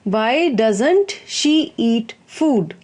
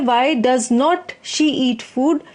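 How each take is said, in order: First: Does not is contracted into one word. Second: Does not is said as two full words. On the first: "डज नॉट को डजेंट भी कह देते हैं" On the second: "तो ये वैसे वाक्य है"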